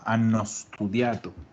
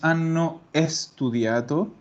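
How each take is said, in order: First: 'Studiato' starts directly with 's', no extra vowel. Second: An extra 'e' sound comes before 'studiato'. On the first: The speaker calls it right. "Pronúncialo todo como una sola cosa" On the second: The speaker calls it wrong. "esa E tenemos que quitarla"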